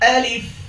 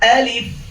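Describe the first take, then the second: The two takes are said the same way.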